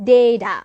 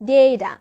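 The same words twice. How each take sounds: No difference in how they are said.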